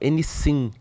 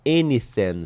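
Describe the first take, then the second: First: The middle sound is like an s sound. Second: The middle sound is a soft th sound. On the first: "soava com um som parecido com S" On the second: "ensinam o som do T H com esse th"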